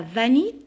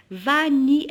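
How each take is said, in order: First: Said in the usual way. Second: "Vanille" split into two syllables, va-ni, louder; "Vanille" in two distinct, emphatic beats. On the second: Shown as a demonstration. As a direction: sound out "Vanille" as va, then ni. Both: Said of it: "elle contient deux syllabes".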